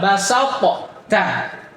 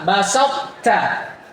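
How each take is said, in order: First: A separate bouncing t is said before the last one. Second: The two t sounds merge into one held t. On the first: The speaker calls it wrong. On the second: The speaker calls it right. "dia langsung diidgham kepada ta"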